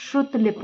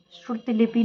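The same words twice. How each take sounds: First: "श्रुतलिप" ending on p; correct clipped ending. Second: "श्रुतलिपि" ending in sounded "pee"; wrong final vowel. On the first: Teacher gives the correction, p-final "श्रुतलिप". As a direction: drop the last vowel of "श्रुतलिप". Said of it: "होता है". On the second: Teacher rejects the form, final i in "श्रुतलिपि". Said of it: "नहीं होता है". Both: Shown as a demonstration.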